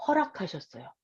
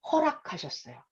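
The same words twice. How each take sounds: First: 허락하셨어요 said again, much softer; softer repeat. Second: Said in the usual way. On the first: Shown as a demonstration. Preacher repeating 허락하셨어요 for emphasis, hushed. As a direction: drop the voice on 허락하셨어요. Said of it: "repeated quieter".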